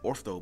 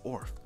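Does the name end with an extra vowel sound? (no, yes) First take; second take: yes; no. First: The name ends with an extra vowel sound. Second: The name ends on the final consonant. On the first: The speaker calls it wrong. "I keep saying Ortho" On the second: The speaker calls it right. "but it's Orth"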